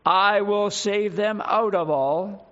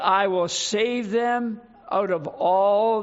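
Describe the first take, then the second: First: "I will save them out of all" slow and weighty; "I will save them out of all" drawn out with emphasis. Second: Said in the usual way. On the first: Shown as a demonstration. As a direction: stretch each word of "I will save them out of all" firmly. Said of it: "Emphasis on the words".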